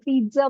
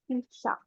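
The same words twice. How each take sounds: First: The middle consonant sounds like dz. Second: The middle consonant sounds like ts. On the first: The speaker calls it wrong. "पिज्जा बोलने की आदत पड़ गई है" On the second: The speaker calls it right. "Actual में सही pronunciation यही है ... जा नहीं आएगा ... सा आएगा"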